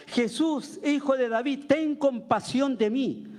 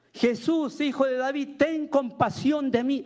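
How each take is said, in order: First: Higher-pitched imitation of a beggar calling out; retold pleading cry. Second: More insistent retold cry. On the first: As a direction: call for mercy, stretching the last words. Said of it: "se puso a gritar". (súplica imitada en tono agudo, sin gritar del todo) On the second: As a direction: imitate a beggar refusing to be hushed. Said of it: "él gritaba mucho más". (grito imitado insistente, agudo y alargado al final)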